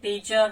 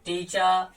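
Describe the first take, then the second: First: टीचर with the final r sounded; American-style टीचर, r pronounced; rhotic teacher. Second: टीचर in a British accent, final r dropped; British non-rhotic टीचर; British teacher. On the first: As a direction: say टीचर with a clear r at the end. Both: Shown as a demonstration. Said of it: "जब एक British या Australian बोलता है".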